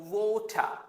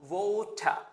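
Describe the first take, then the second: First: It is said in a British accent. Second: It is said in a British accent.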